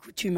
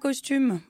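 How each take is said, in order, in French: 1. On n'entend aucun son s avant le t. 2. On entend un son s avant le t. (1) "on dit coutume" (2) "On ne dit pas costume"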